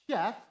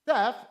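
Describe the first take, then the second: First: The name begins with an 'sh' sound. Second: The name begins with a plain 's' sound. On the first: The speaker calls it right. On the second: The speaker calls it wrong.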